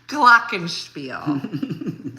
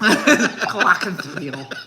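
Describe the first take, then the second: First: It is said in a plain voice. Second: It is said with a put-on lisp.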